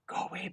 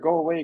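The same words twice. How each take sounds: First: It is whispered softly. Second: It is shouted loudly. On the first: "She like whispers it" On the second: "I'm like screaming for this bear"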